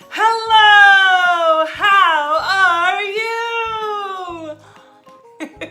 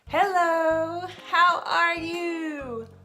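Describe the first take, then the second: First: It is said with extreme exaggeration. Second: It is said with moderate exaggeration.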